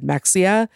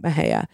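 First: The middle consonant is a ks sound. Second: The middle consonant is an h sound. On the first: "Mejia is spelled M-E-X-I-A, so it could be said Mexia" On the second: "everyone was calling it Mejia"

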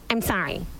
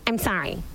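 First: It is said in a curt, insincere tone. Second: It is said in a curt, insincere tone.

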